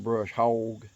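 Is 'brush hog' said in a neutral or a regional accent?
regional. It is said in a regional accent.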